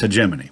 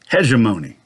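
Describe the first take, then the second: First: The middle sounds like 'Jiminy'. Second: The middle does not sound like 'Jiminy'. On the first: The speaker calls it right. "The preferred pronunciation is hegemony" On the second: The speaker calls it wrong. "some people pronounce that word hegemony"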